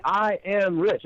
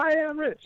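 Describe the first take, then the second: First: Firm, proclaiming I am rich; a speaker declaring rich to a crowd; confident affirmation. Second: High, unsure I am rich from the crowd; doubtful crowd echo. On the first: Shown as a demonstration. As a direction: lead the room in saying it boldly. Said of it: "have everybody stand up and say". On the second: Retold or imitated. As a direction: mimic a crowd that doesn't believe it. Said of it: "Everybody goes".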